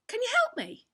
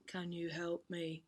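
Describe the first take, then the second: First: "Can you help me?" pitched high and louder, as a real question; questioning pitch rise. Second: "Can you help me?" low, slow and soft, without lift; no questioning rise. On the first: Drama teacher showing intonation, "Can you help me?" as high-pitched question. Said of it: "the pitch goes up". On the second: Drama teacher showing lost effect, "Can you help me?" without pitch rise. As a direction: keep "Can you help me?" level and subdued, drawn out. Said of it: "doesn't have the same effect". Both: Shown as a demonstration.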